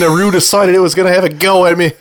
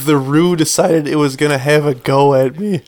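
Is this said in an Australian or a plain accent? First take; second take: Australian; plain. First: It is said in an Australian accent. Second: It is read in the speaker's ordinary accent.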